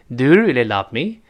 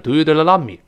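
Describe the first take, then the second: First: The pitch rises at the end. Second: The pitch falls at the end. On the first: The speaker calls it right. "最后声音是翘起来的" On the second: The speaker calls it wrong. "不要说"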